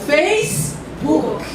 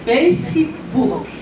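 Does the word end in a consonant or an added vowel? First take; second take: consonant; added vowel. First: The word ends cleanly on the k sound. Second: An extra vowel sound follows the final k. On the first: The speaker calls it right. "Olha que chique, hein?" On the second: The speaker calls it wrong. "Não é Facebook"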